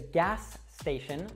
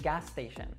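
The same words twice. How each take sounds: First: Both S sounds are pronounced separately. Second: The two S sounds merge into one.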